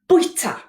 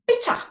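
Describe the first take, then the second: First: The first syllable keeps a rounded 'wi' glide. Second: The first syllable is a plain short 'bi'. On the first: "The Welsh word for to eat, yeah, is bwyta" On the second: "but quite often pronounced as bita"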